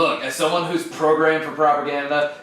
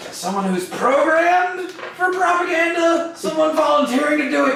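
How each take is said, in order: First: Said in the usual way. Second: High-pitched glitch. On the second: Acted. Droid resumes after slogan outburst.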